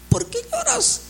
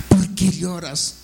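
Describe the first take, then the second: First: "¿Por qué lloras?" pitched very high; high pleading question. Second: Said in the usual way. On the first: Acted. Preacher repeats Jesus' question to the flock, high-pitched exhortation. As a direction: lift the whole question far above normal voice.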